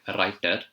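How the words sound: It is said in an Indian accent. "The Indian accent would be a writer"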